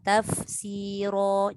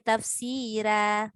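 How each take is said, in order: First: The final r sound is thick and heavy. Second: The final r sound is thin and light. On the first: The speaker calls it right. "Ra ni memang tafkhim. Tafkhim tu tebal" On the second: The speaker calls it wrong. "Jangan baca tafsira"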